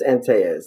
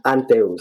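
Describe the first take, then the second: First: The name is pronounced the English way. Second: The name is pronounced the Spanish way. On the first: "In English" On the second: "and in Spanish"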